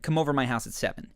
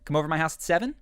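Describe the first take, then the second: First: The voice falls at the end. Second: The voice rises at the end.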